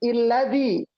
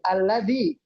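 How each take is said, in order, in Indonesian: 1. Kata ini diawali dengan vokal 'i'. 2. Kata ini diawali dengan vokal 'a'. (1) "Kalau kata sebelumnya bunyinya i" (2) "Kalau kata sebelumnya bunyinya a"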